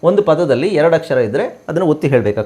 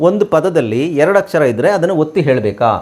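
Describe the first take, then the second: Both takes have the same delivery.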